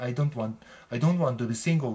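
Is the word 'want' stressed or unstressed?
unstressed. The word want carries no special stress. A plain statement of not wanting to be single. "普通の言い方"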